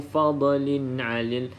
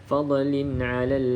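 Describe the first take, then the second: No difference in how they are said.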